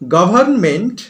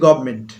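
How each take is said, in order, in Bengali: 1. "m" এর আগের "n" ধ্বনিটি উচ্চারিত হয়। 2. দ্রুত বললে "n" ধ্বনিটি লোপ পায়।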